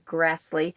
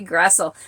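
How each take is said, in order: First: The name ends with an 'ee' sound. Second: The name ends with an 'el' sound. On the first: The speaker calls it right. "you do pronounce her name Grassley" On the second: The speaker calls it wrong. "to me it looks like it should be"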